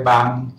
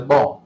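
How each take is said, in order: First: “网” as in 网络, seventh tone; colloquial reading. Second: “网” in the literary reading, second tone. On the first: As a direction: say “网” the spoken way, tone seven. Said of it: "爱念第七声". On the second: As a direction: say “网” the reading way, tone two. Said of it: "读册音是念作". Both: Shown as a demonstration.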